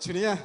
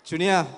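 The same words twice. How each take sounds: First: The name is called softly and gently. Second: The name is called out loudly. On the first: It is how she is called at home. The speaker calls it right. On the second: It is a public call on stage. The speaker calls it wrong.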